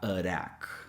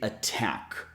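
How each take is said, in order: First: The T is a quick, soft tap sound. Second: The T is a clear, regular T sound. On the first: The speaker calls it wrong. "not attack" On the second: The speaker calls it right. "we have to pronounce the T as a regular T"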